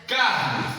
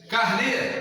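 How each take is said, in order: First: The stress is on the first syllable. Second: The stress is on the last syllable. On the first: "está no car" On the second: "está no ne"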